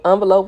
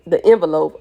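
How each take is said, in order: First: "envelope" starting with ON; ON-velope pronunciation. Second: "envelope" starting with EN; EN-velope pronunciation. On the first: Reader offering the other "envelope", opening it with ON. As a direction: say "envelope" with an open first vowel, like "on". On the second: Reader correcting herself on "envelope", opening it with EN. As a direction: say "envelope" with a short e, as in "pen". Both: Shown as a demonstration. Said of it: "whatever you wanna call it".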